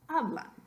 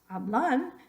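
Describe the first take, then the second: First: The stress is on the first syllable. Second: The stress is on the last syllable. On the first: The speaker calls it right. "sino hablan" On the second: The speaker calls it wrong. "no es hablan"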